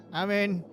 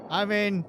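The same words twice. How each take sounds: The two takes are said the same way.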